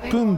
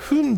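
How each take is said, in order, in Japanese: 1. この単語はPの音で始まります。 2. この単語は軽いFの音で始まります。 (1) "プンって読むっていうのがね、なんかこう当たり前だと思ってた" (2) "分ではなくプンって読む"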